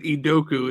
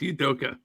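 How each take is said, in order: First: The name ends with an 'oo' sound. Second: The name ends with an 'ah' sound. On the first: The speaker calls it wrong. "you said Idoku" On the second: The speaker calls it right. "it's Idoka"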